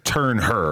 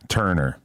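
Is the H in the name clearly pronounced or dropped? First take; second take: pronounced; dropped. First: The H is clearly pronounced in the name. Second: The H is dropped and the name flows smoothly. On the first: "pronounce the H" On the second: "a smooth TurnHer"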